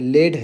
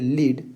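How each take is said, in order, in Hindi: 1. स्वर छोटा है, जैसे 'bed' में। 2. स्वर लंबा है, जैसे 'bead' में। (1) "लेड है, जो क्या है? एक मेटल है" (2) "ये है लीड, जिसका मतलब होता है गाइड करना"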